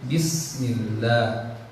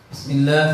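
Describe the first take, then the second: First: The s sound is held for a moment. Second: The s sound is cut short. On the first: The speaker calls it right. "Bismillah ada waktu jedanya" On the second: The speaker calls it wrong. "Bismillah salah"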